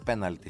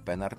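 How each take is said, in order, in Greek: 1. Το μεσαίο σύμφωνο είναι ήχος λ. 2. Το μεσαίο σύμφωνο είναι ήχος ρ. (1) "είναι πέναλτι συνήθως" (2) "δεν είναι πέναρτι"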